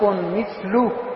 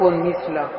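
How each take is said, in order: First: The word ends with a u vowel: mithlu. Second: The word ends with an a vowel: mithla. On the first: The word is an adjective describing the predicate. "برفع مثل" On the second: The word has a fixed, undeclined ending. "مثل اسم مبني"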